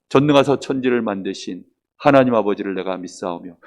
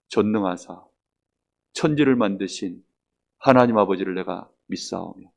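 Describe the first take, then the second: First: It is recited briskly in a group rhythm. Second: It is recited slowly with long breaths.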